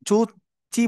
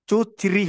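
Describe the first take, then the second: First: The second syllable has no r sound. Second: The second syllable has an r sound. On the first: The speaker calls it wrong. "অনেকে আমরা চু চি বলছি" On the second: The speaker calls it right. "চু চিরি হবে"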